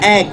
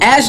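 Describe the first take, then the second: First: The word ends with a k sound. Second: The word ends with an s sound. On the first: The speaker calls it right. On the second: The speaker calls it wrong.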